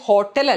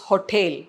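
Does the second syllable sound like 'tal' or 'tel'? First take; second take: tal; tel. First: The second syllable sounds like 'tal'. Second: The second syllable sounds like 'tel'. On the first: The speaker calls it wrong. "പക്ഷെ ഹോട്ടൽ അല്ല" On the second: The speaker calls it right. "It's ഹൊട്ടേൽ"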